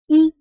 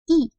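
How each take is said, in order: First: The syllable is said with a high level tone. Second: The syllable is said with a sharp falling tone. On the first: It is counted as a number on its own. "c'est i, c'est le premier ton" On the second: It comes before a first, second or third tone measure word. "c'est i, quatrième ton"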